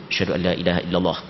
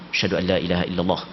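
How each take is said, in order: The two takes are said the same way.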